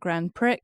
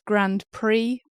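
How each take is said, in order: First: Prix is pronounced just the way it is spelled. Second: Prix is not pronounced the way it is spelled. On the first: The speaker calls it wrong. "I'm saying it as it's written" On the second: The speaker calls it right. "Apparently it's Grand Prix"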